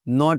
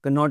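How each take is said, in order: First: The word starts with a plain N sound. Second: The word starts with a pronounced K sound. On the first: The speaker calls it right. "नॉट होता है" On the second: The speaker calls it wrong. "कनॉट नहीं होता जी"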